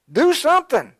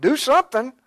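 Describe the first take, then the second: First: "Do" punched high and loud, then falling; stress on do. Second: "something" हल्का ऊँचा और ज़ोर से, then falling; stress on something. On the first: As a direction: slam the word Do, louder than the rest. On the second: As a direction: hit the word something, let do stay light. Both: Shown as a demonstration.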